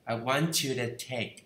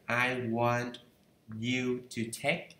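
First: 'To' is reduced to a weak 'the'. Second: 'To' is said in full as 'to'.

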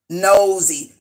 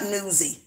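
First: The first syllable sounds like 'nose'. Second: The first syllable sounds like 'new'. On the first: The speaker calls it right. "It's called nosy" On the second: The speaker calls it wrong. "Not newsy"

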